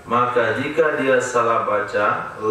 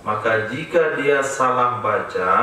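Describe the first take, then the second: No difference in how they are said.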